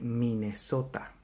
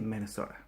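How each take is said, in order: First: Every vowel is full and clear. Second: Some vowels are reduced and weak. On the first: "A is always A, E is always E, I is always I, O is always O" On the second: "we don't say Minnesota"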